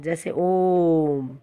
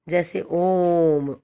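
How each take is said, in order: First: ओम held very long and slow as a pluta vowel; prolonged Om. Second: ओम stretched slowly into one long held vowel; prolonged Om. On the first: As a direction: draw out ओम to three times a short vowel. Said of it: "उसे हम प्लुत स्वर कहते हैं". (ओम को लंबा खींचकर) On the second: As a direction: hold ओम out slowly as a pluta vowel. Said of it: "प्लुत स्वर है". (प्लुत स्वर ओम लंबा खींचकर) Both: Shown as a demonstration.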